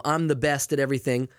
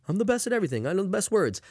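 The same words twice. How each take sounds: First: Said in the usual way. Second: Higher, boastful politician impression; Donald Trump. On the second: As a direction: brag like a pompous president. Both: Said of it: "You know, like Trump".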